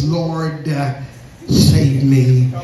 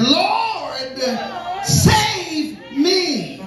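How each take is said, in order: First: Low, solemn churchy plea; sanctified voice. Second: High, drawn-out drowning man's scream; fearful yell. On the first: Shown as a demonstration. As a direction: put on a composed, pious voice. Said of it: "talking in his sanctified voice". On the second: Acted. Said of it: "He was yelling for fear of drowning".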